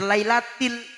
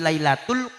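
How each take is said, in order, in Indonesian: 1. Suku kata ketiga diucapkan 'til'. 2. Suku kata ketiga diucapkan 'tul'. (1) "Sing bener lailatil" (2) "Barang bapaknya bacane inna anzalnahu fi lailatul qadar"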